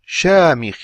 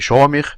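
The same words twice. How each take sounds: First: The first syllable is plain, tongue back not raised. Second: The first syllable is heavy, tongue back raised. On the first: The speaker calls it right. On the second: The speaker calls it wrong.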